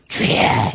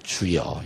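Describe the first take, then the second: First: It is said in an intense, fervent way. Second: It is said in a simple, plain way.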